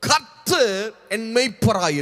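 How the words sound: The first word carries strong emphasis. The speaker calls it right. "அந்த கர்த்தர் அப்படிங்கிற வார்த்தைக்கு அழுத்தம் கொடுக்கணும்"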